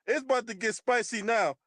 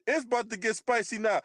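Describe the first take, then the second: No difference in how they are said.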